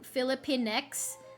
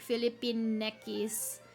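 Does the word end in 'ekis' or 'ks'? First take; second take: ks; ekis. First: The ending is said as a plain 'ks' sound. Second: The ending is said as the syllables 'ekis'. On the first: This is how English speakers read it. "that's only something English speakers can actually pronounce" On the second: This is how Filipino speakers would read it. "if you say it in Filipino, it would just be like"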